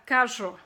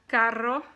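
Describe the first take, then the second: First: The double R is not rolled. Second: The double R is rolled. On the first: "if you can't say the um, R sound, you can always go R" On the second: "The two R's, you roll the R's"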